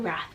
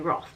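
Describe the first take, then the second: First: The vowel sounds like the one in 'bath'. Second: The vowel sounds like the one in 'cloth'. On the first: The speaker calls it wrong. "I've been saying wrong. I've been saying Wrath" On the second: The speaker calls it right. "but it's actually Roth"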